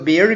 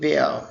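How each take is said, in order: First: It is said in an American accent, r pronounced. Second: It is said in a British accent, r silent.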